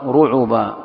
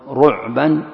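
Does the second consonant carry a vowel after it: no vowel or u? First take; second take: u; no vowel. First: The 'ain is followed by a short u vowel. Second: The 'ain has no vowel after it. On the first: "وضمها" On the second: "بسكون العين"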